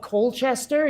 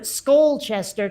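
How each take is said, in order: First: Said in the usual way. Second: "Skolchester" with an s stuck on the front; Vermont local pronunciation. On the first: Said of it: "except everyone called it Skolchester". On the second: Retold or imitated. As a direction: slur an extra s into "Skolchester". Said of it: "everyone, like, chewed tobacco".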